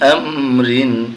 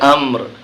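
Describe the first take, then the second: First: The word ends with a full '-rin' syllable. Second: The word ends abruptly on the 'r' sound. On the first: "দুই জের রিন আমরিন" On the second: "যখন এখানে আমরা থামবো তখন উচ্চারণ হবে আমর"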